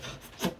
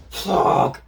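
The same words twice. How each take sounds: First: Breathless, voiceless under-the-breath curse; whispered frustrated curse; muttered curse. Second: Sharp, higher, louder breathy curse; frustrated outburst at a failed plan. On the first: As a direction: curse quietly to yourself. Endeavor cursing to himself. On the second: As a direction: blurt it out in frustration. Endeavor's plan fails. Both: Retold or imitated.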